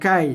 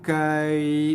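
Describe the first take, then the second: First: The 'ai' sound is clipped short and hard. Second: The 'ai' sound is drawn out softly and smoothly. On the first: The speaker calls it wrong. "bukan kai" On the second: The speaker calls it right. "tapi kai, lunakkan dia"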